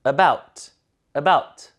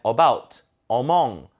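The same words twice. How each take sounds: First: About with faint schwa, BOUT stressed; weakened first vowel. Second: About and among opened with a full 어; Korean-style reading. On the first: Teacher modelling for repetition, about with weak first vowel. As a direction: reduce the A of about to 으. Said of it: "으로 약화시켜서 읽거든요". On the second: Teacher showing learners' habit, about and among with full 어. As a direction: give about, among an unreduced first vowel, 어. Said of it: "이렇게 많이 읽어보셨어요". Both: Shown as a demonstration.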